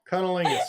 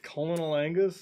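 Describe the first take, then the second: First: The two words are slurred quickly together. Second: The two words are said slowly and separately.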